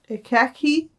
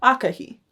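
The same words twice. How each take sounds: First: "Akeki" with a hard k in the last syllable, rising in doubt; mistaken pronunciation. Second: "Akehi" with a breathed h before the final ee; corrected pronunciation. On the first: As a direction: sound out "Akeki" with a k, as a higher-pitched question. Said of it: "No, no, that's an H". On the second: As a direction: say "Akehi" with h for k, falling at the end. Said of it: "Yeah, that sounds right". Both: Shown as a demonstration.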